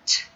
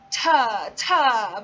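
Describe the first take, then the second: First: The t sound is clipped with no vowel. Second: The t sound is followed by a vowel. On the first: The speaker calls it right. "but t" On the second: The speaker calls it wrong. "you're not going to say ta ta"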